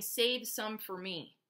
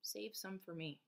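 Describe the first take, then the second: First: Farmer's plea. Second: Soft repeat. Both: Retold or imitated. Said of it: "the farmer keep saying".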